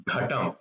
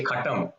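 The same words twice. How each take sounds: First: "Ghatam" starting with voiced, breathy gh; correct consonant. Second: "Katam" starting with k in place of gh; wrong consonant. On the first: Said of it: "it's Ghatam". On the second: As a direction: say "Katam" with a voiceless first sound. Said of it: "you should not say Katam". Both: Shown as a demonstration.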